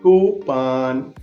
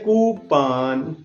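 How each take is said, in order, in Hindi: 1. दूसरे अक्षर में चौड़ा 'ah' स्वर है। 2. दूसरे अक्षर में चौड़ा 'ah' स्वर है।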